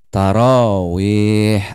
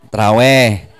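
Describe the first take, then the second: First: It is said with Arabic sounds and a light h. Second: It is said short in the Betawi way. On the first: "Haknya hak tipis"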